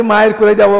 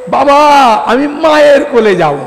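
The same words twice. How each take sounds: First: Said in the usual way. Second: Put-on high, loud little boy's plea; a small child begging to go to mother; pleading child. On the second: Kanai on father's lap begs to go to his mother, high pleading child voice.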